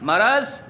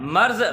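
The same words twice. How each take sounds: First: It is said as two syllables, maraz. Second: It is said as one syllable, marz. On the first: The speaker calls it right. "मर्ज दुरुस्त है" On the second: The speaker calls it wrong. "मर्ज गलत है"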